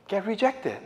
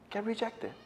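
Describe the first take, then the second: First: Said in the usual way. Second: Quiet echo. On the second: Shown as a demonstration. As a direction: let "Get rejected." fall away softly.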